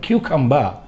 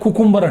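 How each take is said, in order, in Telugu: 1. ఇది 'kyoo' తో మొదలై R లేకుండా ముగుస్తుంది. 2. ఇది 'koo' తో మొదలై స్పష్టమైన R తో ముగుస్తుంది. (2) "స్పెల్లింగ్ ప్రకారంగా చూస్తే కుకుంబర్ అంటారు చాలామంది, కానీ తప్పది"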